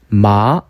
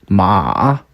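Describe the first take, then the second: First: It is said with the second tone. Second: It is said with the third tone. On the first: "이" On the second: "삼"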